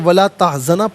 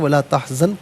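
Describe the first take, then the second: First: The last word ends with a short a vowel. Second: The last word ends on a bare n sound. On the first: The reader continues without stopping. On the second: The reader stops here.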